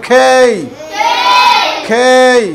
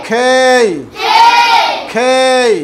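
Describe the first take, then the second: The two takes are said the same way.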